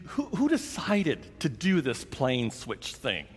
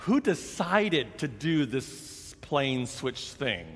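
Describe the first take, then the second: First: Said in the usual way. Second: Slow, deliberate, leaning on "Who"; stress on Who. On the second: Shown as a demonstration. Asking the gate agent again, slow with weight on "Who". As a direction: spell out "Who decided" slowly so he gets it. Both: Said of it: "No, no, I'm sorry".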